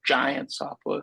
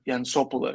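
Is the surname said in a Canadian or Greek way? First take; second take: Canadian; Greek. First: The surname is pronounced the Canadian way. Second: The surname is pronounced the Greek way. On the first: This is how Canadians say the name. "they don't say like Giantsopoulos" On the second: This is how Greeks say the name. "I guess Greeks would say Yansopoulos"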